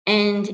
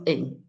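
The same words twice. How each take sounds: First: AND with a full "a" vowel; full strong AND; strong form. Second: AN as a reduced schwa, "uhn"; weak form. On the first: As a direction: say AND stressed and unreduced. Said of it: "the strong form is being used". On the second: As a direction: say AN weak, vowel swallowed to "uhn". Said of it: "and instead of an". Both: Shown as a demonstration.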